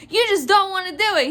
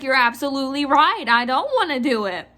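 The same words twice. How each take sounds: First: Quick, high-pitched accusation; imitated irate customer. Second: Said in the usual way. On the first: Clerk mimics customer accusing the manager, irate. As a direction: accuse in a mock-outraged rush. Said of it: "Mainly her just screaming".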